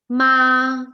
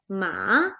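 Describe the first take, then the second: First: The pitch stays high and level. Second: The pitch falls and then rises. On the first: "ma in constant, that is first tone" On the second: "It falls and then it rises"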